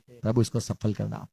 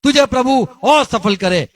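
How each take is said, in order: First: Soft, low, heartfelt prayer; mean every word, gently; a quiet blessing from the heart; sincere from the heart. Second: High and loud, a blessing that jabs; a loud mock blessing aimed at the listener; taunting blessing. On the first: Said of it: "पर दिल से बोलते". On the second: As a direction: say it to rub it in. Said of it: "सुनने वाले को कभी सुनाने के लिए". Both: Shown as a demonstration.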